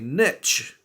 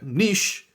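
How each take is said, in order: First: The word is said with an American pronunciation. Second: The word is said with a British pronunciation. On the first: "you guys would say niche" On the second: "that's how we say it"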